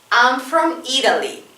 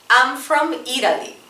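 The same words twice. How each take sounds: The two takes are said the same way.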